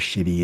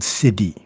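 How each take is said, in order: First: The word begins with an sh sound. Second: The word begins with a plain s sound. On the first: The speaker calls it wrong. "shitty sounds funny" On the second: The speaker calls it right. "I prefer saying siddhi"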